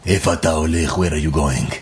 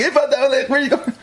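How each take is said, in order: First: Lower, ominous mock voice; a hint of a threatening driver, played lower; mock menacing stranger. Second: Much higher, light friendly voice with a laugh; cheerful, laughing high question to a hitchhiker; friendly driver as he really said it. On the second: Retold or imitated. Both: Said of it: "They didn't say it like that".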